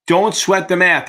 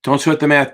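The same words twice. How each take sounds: First: "Don't" leaned on, slow and a touch higher; slow down and press "Don't"; stress on DON'T. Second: Said in the usual way. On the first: Shown as a demonstration. Tutor reassuring a student, stressing "Don't" slowly.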